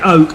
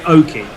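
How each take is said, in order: First: The name is said as one syllable. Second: The name is said with an added second syllable. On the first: This is the speaker's own pronunciation. The speaker calls it right. "So I say oak" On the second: This is how other people pronounce it. The speaker calls it wrong. "some people say oaky"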